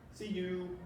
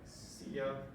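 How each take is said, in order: First: The second word is said fully as 'you'. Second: The second word is reduced to 'ya'.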